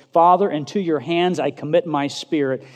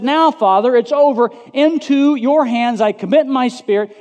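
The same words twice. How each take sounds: First: Said in the usual way. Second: High, loud cry to the Father. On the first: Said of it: "he called out in a loud voice". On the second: Acted. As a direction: call out at full preaching force. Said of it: "in a loud voice".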